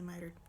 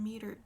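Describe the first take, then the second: First: The first vowel sounds like 'eye'. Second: The first vowel sounds like 'ee'. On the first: The speaker calls it right. "so I guess it's probably mitered" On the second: The speaker calls it wrong. "In my head I've always pronounced it metered"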